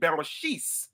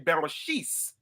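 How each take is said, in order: First: It is said with the Yiddish pronunciation. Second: It is said with the Yiddish pronunciation.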